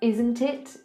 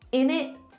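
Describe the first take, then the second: First: Both words are said fully and separately. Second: The words blend into a short 'innit'. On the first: "instead of isn't it"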